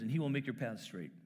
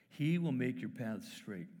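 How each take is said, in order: First: Said in the usual way. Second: Slow the verse right down; slow, savouring reread; slow, weighty repeat. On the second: Shown as a demonstration. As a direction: let each word land slowly.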